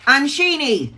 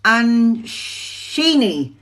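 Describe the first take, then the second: First: Said in the usual way. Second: Slow, syllable by syllable: An-shi-ni; careful name. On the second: Shown as a demonstration. Reader corrects a viewer's name, sounding it out. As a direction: sound out Anshini slowly to get it right. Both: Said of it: "am I saying that right? No".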